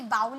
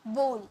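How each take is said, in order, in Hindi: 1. स्वर 'cow' जैसा सुनाई देता है। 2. स्वर 'go' जैसा सुनाई देता है। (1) "इसे बाउल नहीं पढ़िएगा"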